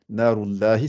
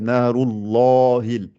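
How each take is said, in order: First: The L in Allah sounds light and thin. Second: The L in Allah sounds heavy and full. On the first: The speaker calls it wrong. "je ne dis pas narullahi" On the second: The speaker calls it right. "c'est narullahil"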